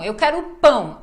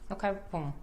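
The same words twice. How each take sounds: First: The nasal word pão is strongly emphasized. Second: The nasal word pão is weak and unemphasized. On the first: The speaker calls it right. "Ao invés de falar pão" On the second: The speaker calls it wrong. "Aí a pessoa fala"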